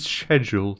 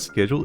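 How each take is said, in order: First: Schedule is pronounced the British way. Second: Schedule is pronounced the non-British way. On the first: The speaker calls it right. "That's how you say it in British" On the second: The speaker calls it wrong. "it's not schedule"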